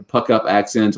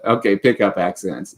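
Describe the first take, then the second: First: "Puck" said with an uh vowel, like puck; slip of the tongue. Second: "pick" said cleanly with a short i; corrected word. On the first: Reading to viewers, stumbles saying "Puck" like puck. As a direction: trips on "Puck", saying puck instead of pick. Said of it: "when tr-, pick up". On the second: Correcting herself for viewers, clear short-i "pick". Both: Real, not acted.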